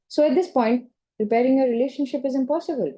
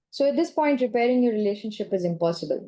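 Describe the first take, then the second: First: Rising questioning tune on impossible. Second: Flat falling statement, full stop at the end. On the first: To the client, gently questioning the statement. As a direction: let it hang as a question. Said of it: "it's a different tone entirely". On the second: To the client, a flat final statement. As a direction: say impossible as a closed fact. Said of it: "there's a full stop there". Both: Shown as a demonstration.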